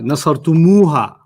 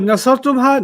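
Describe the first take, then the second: First: An extra u sound comes before ha. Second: The ending ha follows tum directly. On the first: The speaker calls it right. "we're gonna add a u on it" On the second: The speaker calls it wrong. "But nasartumha, no"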